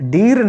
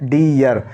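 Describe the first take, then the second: First: The vowel is a plain 'ee' straight into r. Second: The vowel glides from 'ee' to 'uh' before r. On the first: The speaker calls it wrong. "डीर नहीं पढ़ेंगे इसको" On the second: The speaker calls it right.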